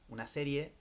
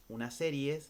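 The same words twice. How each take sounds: The two takes are said the same way.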